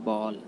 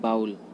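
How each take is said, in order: First: The vowel sounds like 'aw' in ball. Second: The vowel sounds like 'ow' in cow. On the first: The speaker calls it right. "Right होता है बॉल।" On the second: The speaker calls it wrong. "जो कि गलत होता है।"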